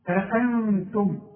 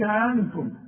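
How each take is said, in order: First: Both glottal stops are clearly and separately said. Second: The two glottal stops are not both clearly said. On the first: The speaker calls it right. "عندك همزتين اظهرهم" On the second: The speaker calls it wrong. "ما تقولش"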